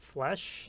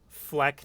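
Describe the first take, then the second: First: The word ends with an 'sh' sound. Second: The word ends with a 'k' sound. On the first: The speaker calls it wrong. "not flesh" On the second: The speaker calls it right. "It's pronounced fleck"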